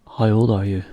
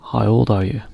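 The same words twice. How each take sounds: The two takes are said the same way.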